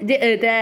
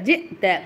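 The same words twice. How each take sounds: First: No glottal stop is heard in the word. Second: A clear glottal stop is heard in the word. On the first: The speaker calls it wrong. "அப்படி சொல்லக்கூடாது" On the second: The speaker calls it right. "அவ்வளோதான். அந்த ஹம்சாவை நம்ம சொல்கிறோம், அது நமக்கு கரெக்டாக தெரியணும்"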